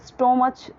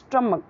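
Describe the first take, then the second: First: It has an 'oh' vowel and ends in 'ch'. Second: It has an 'uh' vowel and ends in 'k'. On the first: The speaker calls it wrong. "या फिर स्टोमच तो भी wrong हो जाएगा" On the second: The speaker calls it right. "क्या बोलना है, स्टमक"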